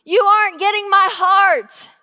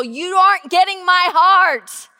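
First: Higher, louder repeat; climbing, louder plea; pleading. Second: Raised, insistent plea; loud insistent plea; pleading. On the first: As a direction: push it harder the second time. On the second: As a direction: press the words on them. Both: Retold or imitated. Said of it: "telling them very openly".

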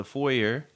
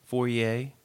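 First: Said in the usual way. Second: "foyer" said French-style, ending in "yay"; French pronunciation. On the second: Shown as a demonstration. Host correcting to "foyer", said the French way as foy-YAY. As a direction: end "foyer" on an AY sound, silent R. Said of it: "the foyer, foyer".

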